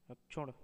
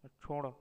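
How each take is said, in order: First: रक्षुण with a k sound, "akchhun"; रक्षुण said as "ak-chhud"; wrong form. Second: Said in the usual way. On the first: Shown as a demonstration. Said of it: "अशुद्ध शब्द". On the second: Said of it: "शुद्ध शब्द".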